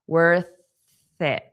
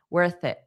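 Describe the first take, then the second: First: The phrase is said slowly and deliberately. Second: The phrase is said quickly at natural speed.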